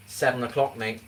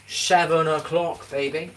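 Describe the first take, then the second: First: Said in the usual way. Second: Slow, stretched and higher, savouring it; drawn out. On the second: Shown as a demonstration. Streamer teasing chat about dinner time, slow stretched higher. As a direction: stretch out seven o'clock, baby.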